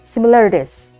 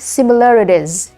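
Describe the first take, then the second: First: The word ends with a z sound. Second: The same.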